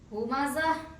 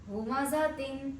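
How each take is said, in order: First: The word ends with a soft h sound. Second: The word ends with a full tin sound. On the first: The reader stops on this word. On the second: The reading continues without stopping.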